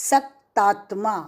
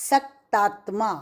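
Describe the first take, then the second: No difference in how they are said.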